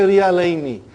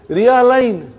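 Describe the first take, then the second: First: The word ends with a final i vowel. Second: The word ends on the n, no final vowel. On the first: The full grammatical form of the word. "They won't even say Riyalaini" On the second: The shortened form that people actually shout. "They will say"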